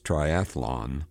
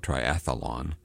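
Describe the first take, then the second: First: No extra vowel is inserted, making three syllables. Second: An extra vowel is inserted, making four syllables. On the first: The speaker calls it right. "there's no extra A in there" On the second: The speaker calls it wrong. "There is no triathlon"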